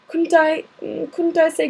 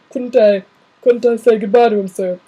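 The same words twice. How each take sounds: First: "Couldn't I" pitched up like McGonagall; higher, thinner voice by mistake; the wrong character's voice for Hagrid. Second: The giant pleading, booming; corrected to the big gamekeeper's voice; Hagrid voice. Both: Acted. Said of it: "said Ha-, er".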